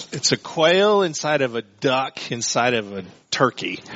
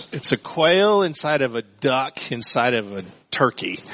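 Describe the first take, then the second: No difference in how they are said.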